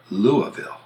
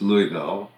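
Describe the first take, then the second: First: LOUISVILLE as LOO-uh-vul; reduced middle vowel. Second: LOUISVILLE as LOO-ee-vil; Louie pronunciation. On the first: Giving the other side of the debate, Louisville as LOO-uh-vul. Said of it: "or Louisville". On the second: Giving one side of the debate, Louisville as LOO-ee-vil. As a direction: clear EE in the middle of Louisville. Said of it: "whether it's Louisville". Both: Shown as a demonstration.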